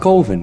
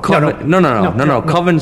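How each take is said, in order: First: The first vowel sounds like the o in over. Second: The first vowel sounds like the o in oven. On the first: The speaker calls it right. "It's pronounced Coven, man. What else could it be pronounced?" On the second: The speaker calls it wrong. "Coven sounds like oven, man, and that's just, it doesn't work"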